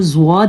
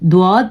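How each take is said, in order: First: The word begins with a z sound. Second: The word begins with a d sound. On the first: The speaker calls it right. "इसको ज़्वाद ही पढ़ा जाएगा" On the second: The speaker calls it wrong. "द्वाद पढ़ना ठीक नहीं है"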